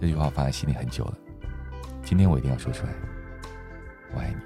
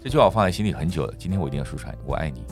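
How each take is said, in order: First: It sounds soft, tender and inviting. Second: It sounds calm, rational, like a negotiation.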